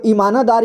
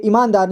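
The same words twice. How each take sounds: First: "ईमानदार" with न said as "na"; full न. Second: Said in the usual way. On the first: Shown as a demonstration. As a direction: say "ईमानदार" as i-maa-na-daar. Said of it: "यहाँ पे नहीं लिखा है". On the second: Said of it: "यहाँ पे ईमानदार लिखा है".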